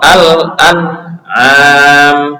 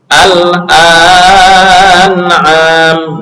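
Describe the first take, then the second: First: The vowel is held for one short beat. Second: The vowel is stretched out longer. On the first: The speaker calls it right. "ini bacaannya adalah satu satu harokat" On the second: The speaker calls it wrong. "nggak boleh dibaca"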